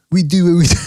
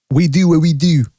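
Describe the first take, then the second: First: Breaks into a laugh mid-line. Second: Said in the usual way. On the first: Real, not acted. Host repeating his motto, laughing at himself. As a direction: let a real laugh slip out before the last word.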